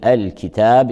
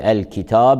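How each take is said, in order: First: The t and long a sound light. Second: The t and long a sound heavy. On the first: The speaker calls it right. "يراعى ترقيق التاء مع ترقيق الألف بعده" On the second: The speaker calls it wrong. "فلا نقول الكتاب"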